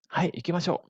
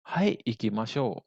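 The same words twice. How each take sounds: First: Said in the usual way. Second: Stretched-out, measured teaching pace; slow model answer. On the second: Shown as a demonstration. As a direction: draw the reply out slowly for students. Teacher models answer slowly first. (jawaban contoh dengan tempo lambat)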